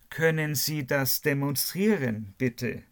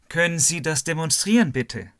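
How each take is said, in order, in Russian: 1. Предложение произносится медленно. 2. Предложение произносится быстро.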